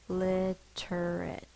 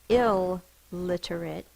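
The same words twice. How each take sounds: First: The L sound is short, said once. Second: The L sound is held long, doubled. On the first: The speaker calls it right. "It's I, lit, er" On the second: The speaker calls it wrong. "now we don't say two L's. It's not illiterate"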